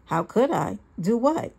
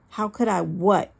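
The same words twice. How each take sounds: First: Lightly voiced mock-innocent questions; narcissistic innocence. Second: Understated, incredulous yell; angry yell. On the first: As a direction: play dumb, lifting the last question. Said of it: "with the narcissism I had now come to despise". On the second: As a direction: throw the question back in restrained anger. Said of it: "I yelled". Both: A narrator's reading.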